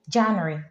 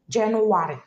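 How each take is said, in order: First: It is said the usual English way. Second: It is said with an Igbo sound. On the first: "we don't say January when we are speaking Igbo" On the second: "We make it sound so Igbotic"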